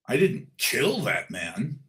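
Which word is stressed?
kill. The word "kill" is stressed. The speaker hurt the man but did not kill him. "I didn't kill him, but I might have beaten him"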